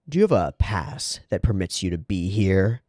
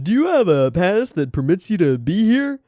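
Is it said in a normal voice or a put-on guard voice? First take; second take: normal voice; guard voice. First: It is read in the speaker's normal voice. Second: It is read in a put-on guard voice.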